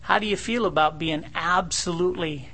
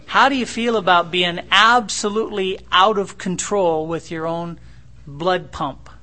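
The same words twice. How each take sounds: First: Said in the usual way. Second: Louder, pressing the question home; forceful preaching. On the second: Acted. Preacher pressing a proud son about his fear. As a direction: drive the question home hard.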